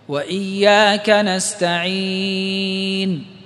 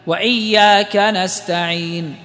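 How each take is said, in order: First: The vowel before final n is held moderately long. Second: The vowel before final n is held briefly. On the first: "أربع" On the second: "حركتين"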